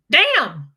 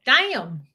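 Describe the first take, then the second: First: Loud, higher "damn" in your own accent; attempted catchphrase damn. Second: Louder Southern drawl stretching "damn" into "day-um"; Southern accent damn. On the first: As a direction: try the catchphrase and let it fall short. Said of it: "I don't ever do the damn". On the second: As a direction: say "damn" with a Southern twang, in two syllables. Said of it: "If you say damn in your Southern accent". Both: Shown as a demonstration.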